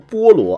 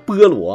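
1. 第一个音节是标准的 'o' 元音。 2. 第一个音节的元音像 'e'。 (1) "他们不读菠萝" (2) "叫菠萝"

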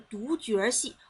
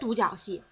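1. 中间这个音节读 jue。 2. 中间这个音节读 jiao。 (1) "这个多音字在这儿他妈的念角儿" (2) "不是"

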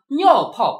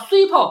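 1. 第一个音节读作niao。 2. 第一个音节读作sui。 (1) "所以我刚才念了一首尿泡啊" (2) "普通话正确的念法是虽泡"

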